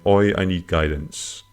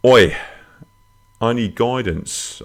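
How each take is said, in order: First: Said in the usual way. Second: High, loud Australian "Oi", then slower; Australian accent. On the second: Acted. Host reading a listener's plea for guidance, Australian accent. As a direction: read it out in a put-on Australian accent. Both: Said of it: "I don't know why I'm doing Australian".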